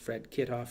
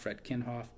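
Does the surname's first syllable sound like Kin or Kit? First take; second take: Kit; Kin. First: The surname begins with the sound kit. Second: The surname begins with the sound kin. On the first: "I don't know if it's Kit" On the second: "or Ken, like K I T K I N"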